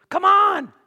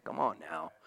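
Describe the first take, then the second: First: High, loud preaching shout; fervent shout. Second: Soft, low coaxing murmur; gentle coaxing. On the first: Real, not acted. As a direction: belt it out to the congregation. Preacher exclaims mid-sermon. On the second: Acted. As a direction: coax him gently, barely above a breath.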